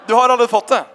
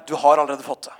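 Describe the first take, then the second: First: Louder, higher repeat with a grin; emphatic repeat. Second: Said in the usual way. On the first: Retold or imitated. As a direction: say it again, louder and firmer. (sier det igjen, høyere og bestemt til den gråtende toåringen) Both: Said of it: "Så sa jeg bare".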